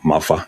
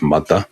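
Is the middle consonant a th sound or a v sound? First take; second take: v sound; th sound. First: The middle th is said as a v. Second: The middle th is said as th. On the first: It marks a Cockney speaker. "or mother instead of" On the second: It marks a standard speaker. "instead of mother"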